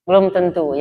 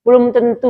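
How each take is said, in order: First: Said in the usual way. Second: Belum tentu punched higher and louder; emphatic correction. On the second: Shown as a demonstration. Rebutting the congregation's judgment, emphatic and raised. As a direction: stress Belum tentu hard to push back on the prejudice.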